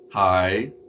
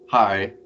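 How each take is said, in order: First: The pitch rises on the syllable. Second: The pitch falls on the syllable. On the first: "an up tone" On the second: "a down tone"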